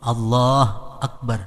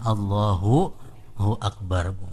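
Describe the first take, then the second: First: The 'hu' syllable is dropped entirely. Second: The 'hu' syllable is clear and short. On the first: The speaker calls it wrong. "Jangan dimatiin hu-nya itu Bang" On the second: The speaker calls it right. "Mestinya Allahu hu Akbar"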